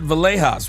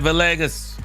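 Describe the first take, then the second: First: The G is said like an H. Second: The G is said as a hard G.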